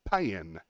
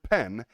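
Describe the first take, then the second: First: The word is drawn out into two syllables. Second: The word is said as one short syllable.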